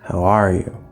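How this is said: The stress falls on the word are. It is asked without any previous context. "to stress that are"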